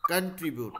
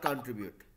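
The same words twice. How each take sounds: First: The first syllable has a short 'kan' vowel. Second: The first syllable has a long 'kaun' vowel. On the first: The speaker calls it right. "कंट्रीब्यूट not" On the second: The speaker calls it wrong. "Not कंट्रीब्यूट"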